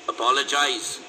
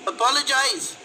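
First: Firm demand from a bully; pressing, commanding tone; insistent. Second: Put-on high-pitched, taunting girl; mean girl's jeer, far higher; cruel smirking girl. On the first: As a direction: insist on it, falling at the end. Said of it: "insisted the leader". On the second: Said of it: "the girl echoed with a cruel smirk". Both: A narrator's reading.

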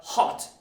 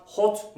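First: "hot" with an open vowel between "o" and "a"; correct open O. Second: "hot" with a rounded Turkish "o"; wrong round O. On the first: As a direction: say "hot" close to "haht". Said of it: "not hot". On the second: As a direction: mispronounce "hot" with a pure "o". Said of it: "Not hot". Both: Shown as a demonstration.

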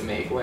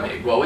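First: "美国" with softer lilting Sichuan tones; Sichuan dialect. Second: "美国" in standard Mandarin tones; plain Mandarin "美国"; Mandarin pronunciation. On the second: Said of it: "it's not". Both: Shown as a demonstration.

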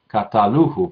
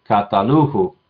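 First: Kataluhu said with the stress in the wrong place; a first try at kataluhu, stress slipped off the right syllable. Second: Kataluhu said again with the stress moved to the proper syllable; kataluhu, stress put right; corrected stress. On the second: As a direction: fix the stress of kataluhu, said with care. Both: Shown as a demonstration. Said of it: "perdón, con el acento".

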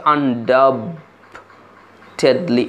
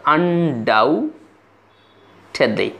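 First: আনডাবটেডলি said slowly with the b sounded, un-doubt-ed-ly; wrong pronunciation. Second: আনডাউটেডলি drawn out very slowly with the b silent; correct pronunciation. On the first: Teacher showing students the wrong way to say আনডাবটেডলি, slowly with the b sounded. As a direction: voice the silent b in আনডাবটেডলি as a deliberate mistake. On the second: Teacher giving students the correct আনডাউটেডলি, very slowly with the b silent. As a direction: say আনডাউটেডলি carefully with no b sound at all. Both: Shown as a demonstration. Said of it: "এই বি সাউন্ডটি silent হয়ে যাবে".

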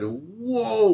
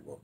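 First: High mock surprised whoa; a big amazed whoa as he sees the set; retold whoa. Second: Said in the usual way. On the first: Colleague sees the production, amazed whoa. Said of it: "Well, he didn't say". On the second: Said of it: "I'm saying, he said".

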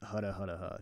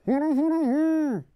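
First: Said in the usual way. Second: High, loud, muffled mumble through a mask; Pyro voice. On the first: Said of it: "let's just go with hudda hudda huh". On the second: Shown as a demonstration. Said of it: "my really bad pyro voice".

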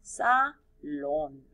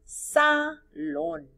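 First: "salón" repeated low, still leaning on the final O and falling; stress on the O, lower. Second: "Salón" with a high, pushed final O, falling off the stress. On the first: ("salón" más grave, acento en la O) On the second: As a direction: sing out the accented O of "Salón". (acento fuerte y agudo en la O de "Salón") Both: Shown as a demonstration. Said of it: "Acento en la O".

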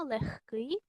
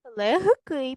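First: "легкий" with г devoiced to х; pronounced as heard. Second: "Легкий" with a voiced г, as spelt; pronounced as written. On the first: Teacher showing pupils the spoken form, pronounced as heard. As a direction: say "легкий" as lekh-kyi, with a breathed х. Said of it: "чуємо та вимовляємо". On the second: Teacher showing pupils the spelling, pronounced as written. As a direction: say "Легкий" letter by letter, keeping г voiced. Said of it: "Пишемо". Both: Shown as a demonstration.

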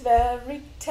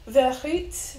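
First: Verite with an English r; English-style attempt. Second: Verite with a breathy French r; French-style attempt. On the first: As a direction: try Verite with a plain American r, rising at the end. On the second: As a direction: try Verite as if French, unsure, rising at the end. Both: Shown as a demonstration. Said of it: "don't know how to pronounce that".

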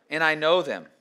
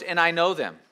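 First: Know stressed, falling. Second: I stressed, falling. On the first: Pastor stressing know as Jesus speaks of his sheep, firm stress. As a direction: lean on the word know in and I know them. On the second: Pastor stressing I as Jesus speaks of his sheep, firm stress. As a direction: lean on the word I in and I know them. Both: Shown as a demonstration.

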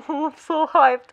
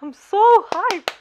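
First: Drawn-out excitement at usual pitch; hyped. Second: High, loud and drawn-out excitement; hyped. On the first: Fan reacting to the anime's big play, contained hype. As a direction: savour the hype, slowly. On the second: Fan repeating their thrill at the anime, louder hype. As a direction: punch SO high and loud, stretching it. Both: Real, not acted.

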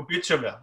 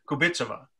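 First: Kubitsova with the stress off the first syllable; wrong syllable stressed. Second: KU-bitsova, stress moved to the first syllable; corrected syllable stress. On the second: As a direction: say Kubitsova leaning on the opening KU. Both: Real, not acted. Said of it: "wrong syllable I'm emphasizing".

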